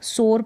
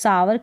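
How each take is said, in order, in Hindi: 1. इसे एक शब्दांश में बोला जाता है, जैसे 'sore'। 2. इसे दो शब्दांश में बोला जाता है, जैसे 'sow-er'। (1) "सोर पढ़ेंगे" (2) "इसको सावर करके नहीं"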